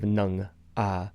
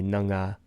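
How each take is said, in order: First: The 'a' is said separately with no linking sound. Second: A 'g' sound links the word into 'a'. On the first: The speaker calls it wrong. "which would sound a little awkward" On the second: The speaker calls it right. "you would pronounce it with a slight little ga"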